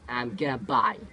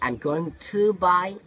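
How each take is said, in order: First: Going to is run together as gonna. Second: Going to is said as two full words. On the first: The speaker calls it right. "in spoken English, British people they say" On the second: The speaker calls it wrong. "instead of saying"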